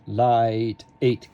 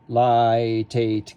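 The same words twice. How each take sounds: First: A glottal stop separates light from eight. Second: The T runs smoothly into eight without a break. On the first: The speaker calls it right. "I would like a glottal, glottal stop on eight" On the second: The speaker calls it wrong. "I don't want light eight"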